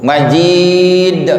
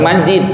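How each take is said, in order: First: The final d is released with a strong bounce. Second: The final d is clipped without a bounce. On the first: The speaker calls it right. "Majid itu qalqalah kubra" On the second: The speaker calls it wrong. "Bukan majid"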